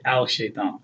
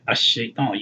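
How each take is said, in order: First: A clear L sound comes before the SH. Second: The L blends into a doubled SH sound. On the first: The speaker calls it wrong. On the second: The speaker calls it right.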